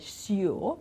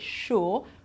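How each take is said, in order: First: The word begins with a plain s sound. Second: The word begins with a sh sound. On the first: The speaker calls it wrong. "We don't say sure" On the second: The speaker calls it right. "we say sure"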